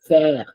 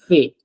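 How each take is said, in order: First: The word ends with an open 'air' sound. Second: The word ends with a closed 'ay' sound. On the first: The speaker calls it right. "So it's air" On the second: The speaker calls it wrong. "It's not"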